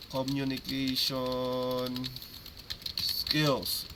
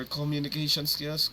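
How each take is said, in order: First: "communication skills" stretched out very slowly; slow, drawn-out term. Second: Said in the usual way. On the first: Real, not acted. Coach giving players the full term, slow and drawn-out. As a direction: draw out "communication", pause, then land "skills".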